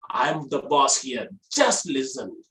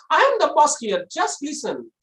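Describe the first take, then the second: First: Low, slow boss voice; low-pitched command. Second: Comically high boss voice; high-pitched command. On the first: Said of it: "use the low pitch so that you will look like a boss". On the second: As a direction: give the boss's order far too high. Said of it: "So it will be so funny". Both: Shown as a demonstration.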